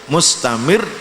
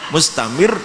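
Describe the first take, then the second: No difference in how they are said.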